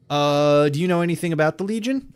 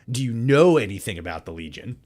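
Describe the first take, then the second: First: Quick, higher rushed read; hurried first try at the line; botched rushed take. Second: Said in the usual way. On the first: Shown as a demonstration. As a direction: blurt the question out fast. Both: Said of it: "let me redo that".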